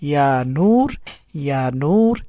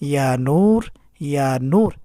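Both takes have the same delivery.

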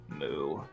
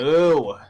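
First: It is said flatly, with little energy. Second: It is said with more excitement.

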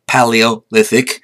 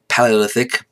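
First: The word is said slowly and carefully. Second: The word is said quickly, at normal speed.

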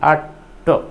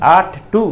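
First: The word "to" has a short reduced vowel. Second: The word "to" has a full long vowel. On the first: The speaker calls it right. "इसका उच्चारण ट होना चाहिए" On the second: The speaker calls it wrong. "टू नहीं"

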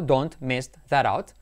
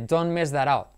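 First: The T of don't is clearly pronounced. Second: The T of don't disappears in connected speech. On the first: "ahí la he pronunciado porque lo he dicho separado" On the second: "cuando lo dices junto, la T desaparece"

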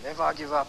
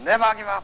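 First: It is said at a normal, softer volume. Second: It is said very loudly, filling the hall.

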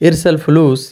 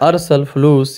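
First: The first word begins with an 'i' vowel. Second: The first word begins with an 'a' vowel. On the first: "ई या अ का मतलब यहाँ पे डिफरेंस हो जाता है" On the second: "ई या अ का मतलब यहाँ पे डिफरेंस हो जाता है"

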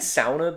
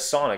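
First: The word is said with a Finnish-style pronunciation. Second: The word is said with an American-style pronunciation. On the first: It follows how local people say it. "that's what I've heard Finnish people pronounce it as" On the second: It is the familiar way back home. "I would just pronounce it as sauna because that's all I've known"

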